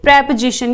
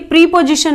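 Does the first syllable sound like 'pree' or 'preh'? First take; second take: preh; pree. First: The first syllable has a short 'eh' vowel. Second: The first syllable has a long 'ee' vowel. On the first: The speaker calls it right. "इसको आप बोलोगे प्रेपोजिशन" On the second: The speaker calls it wrong. "ये प्रीपोजिशन नहीं है"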